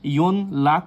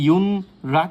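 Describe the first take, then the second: First: An n sound is followed by an l sound. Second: An n sound is followed by an r sound. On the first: "বা ইয়ন লাক উচ্চারিত হবে না" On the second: "এটা কিন্তু ইয়ন রাক উচ্চারিত হবে না"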